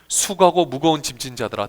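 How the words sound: It is said warmly and lovingly.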